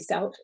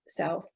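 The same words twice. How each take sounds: First: The word ends with a t sound. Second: The word ends with a th sound.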